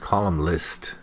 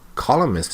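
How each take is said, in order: First: It is said with an l, like column list. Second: It is said as columnist, without an extra l. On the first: The speaker calls it wrong. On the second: The speaker calls it right.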